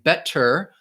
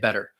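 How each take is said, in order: First: The middle T is a clear, crisp T. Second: The middle T sounds like a soft D. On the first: "like you might hear more in British English" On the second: "I just say better, which sounds more like a D"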